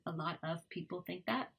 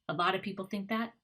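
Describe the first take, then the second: First: The 'of' is said fully as a separate word. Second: The 'of' shrinks to a schwa joined on. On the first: "instead of" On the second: "combined ones"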